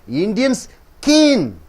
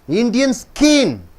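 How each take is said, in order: No difference in how they are said.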